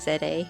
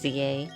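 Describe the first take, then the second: First: The letter is said as zed. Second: The letter is said as zee. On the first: The speaker calls it right. "I try and say Z A" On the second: The speaker calls it wrong. "but sometimes I say Z A"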